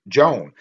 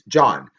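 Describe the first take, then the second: First: The name is said with an English 'Joan' sound. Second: The name is said with a Catalan 'John' sound. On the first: The speaker calls it wrong. "I was pronouncing it Joan" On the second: The speaker calls it right. "It is John"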